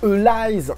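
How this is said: The r is pronounced like an l. "si tu prononces en japonais, c'est Elise parce que le R ça se prononce L en japonais"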